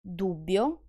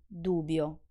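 First: Dubbio with a long bb; doubled dubbio; double bb held. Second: Dubio with a short b; quick b in dubio; undoubled dubio; single b. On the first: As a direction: hold the bb in Dubbio. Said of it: "when I pronounce the double consonant". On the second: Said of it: "and when I don't". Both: Shown as a demonstration.

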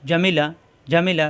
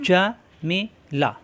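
First: Jamila said quickly with short vowels; brisk correct take; quick short reading. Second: Jamila stretched slowly, each syllable long; slow careful first reading; slow drawn-out reading. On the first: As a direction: read it fast, short harakat. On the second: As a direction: draw the word out slowly. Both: Shown as a demonstration. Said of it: "তাড়াতাড়ি হরকত উচ্চারণ".

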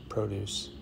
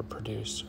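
First: "produce" said PRO-duce, stress on the first syllable with a long o; "produce" as PRO-doose, the grocery noun; "produce" stressed up front: PRO-duce. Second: "produce" said pro-DUCE, weak first syllable, stress on the second; "produce" as pruh-DOOSE, the verb; "produce" with the stress at the end: pro-DUCE. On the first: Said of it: "or produce". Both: Shown as a demonstration.

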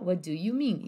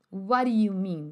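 First: "What do you mean" with a clear D in "do". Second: "What do you mean" slowly as "wari you mean"; linked pronunciation. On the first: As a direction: say "wa doo you mean", no tap. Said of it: "Mas você também pode falar". ("do" com D claro, como o cantor) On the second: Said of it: "Ó a pronúncia disso". ("What do you" ligado, soando "uári iú") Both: Shown as a demonstration.

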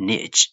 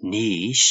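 First: Niche as "nitch"; short i, ch ending in niche; American niche. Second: Niche as "neesh"; British niche. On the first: Teacher recaps for learners, American niche as "nitch". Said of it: "U S လို့ခေါ်တဲ့ American accent". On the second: Teacher recaps for learners, British Niche as "neesh". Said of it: "U K လို့ခေါ်တဲ့ British accent". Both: Shown as a demonstration.

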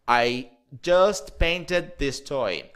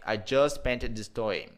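First: Very slow, each word spaced out; slow model sentence. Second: Said in the usual way. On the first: Shown as a demonstration. Teacher slowing down so students can repeat. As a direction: lay it out slowly for the student to copy.

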